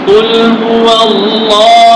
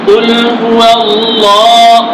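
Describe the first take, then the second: Both takes have the same delivery.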